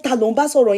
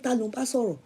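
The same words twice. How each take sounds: First: "Ta ló ń bá sọ̀rọ̀?" with a stern, pointed edge, mild imitation; a hint of a suspicious husband asking "Ta ló ń bá sọ̀rọ̀?". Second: Soft, understated "Ta ló ń bá sọ̀rọ̀?"; quiet version. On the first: Imitating husband demanding who she's talking to, mildly stern. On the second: Retold or imitated. First quoting husband's question quietly, mild and soft. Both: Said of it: "the way he said".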